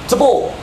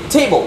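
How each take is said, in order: First: The stress is on the second syllable. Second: The stress is on the first syllable. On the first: The speaker calls it wrong. "not table" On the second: The speaker calls it right. "You say table"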